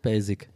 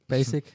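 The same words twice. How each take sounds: First: The s sound is soft and voiced. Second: The s sound is sharp and voiceless. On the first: The speaker calls it wrong. "nicht Basic" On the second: The speaker calls it right. "Das ist eher ein schärferes S und nicht ein weiches S"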